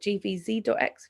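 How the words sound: The ticker is said the American way.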